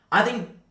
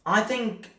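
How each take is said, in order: Both takes have the same delivery.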